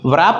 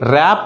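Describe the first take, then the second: First: It starts with a w sound. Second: It starts without a w sound. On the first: The speaker calls it wrong. "వ్రాప్ అనకూడదు" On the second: The speaker calls it right. "ర్యాప్ అనాలి"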